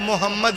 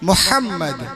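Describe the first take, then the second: First: The h is a plain, light h sound. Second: The h is a deep, breathy throat sound. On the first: The speaker calls it wrong. "मदरसे को हटा दिया जाए तो मोहम्मद बोलते हैं" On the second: The speaker calls it right. "तलफ़्फ़ुज़ सही करें ... हा निकालिए"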